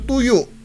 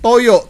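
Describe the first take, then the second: First: The first vowel sounds like 'u'. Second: The first vowel sounds like 'o'.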